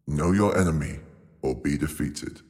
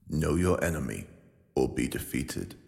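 First: It is said with more gusto and energy. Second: It is said calmly, without extra gusto.

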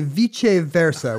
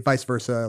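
First: It is said with a fancy, Latin-like pronunciation. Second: It is said with the everyday English pronunciation. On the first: It sounds learned and old-fashioned. "which I think is how Caesar would have said it" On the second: It is the normal conversational form. "in conversation today, I say Vice Versa like 110% of the time"

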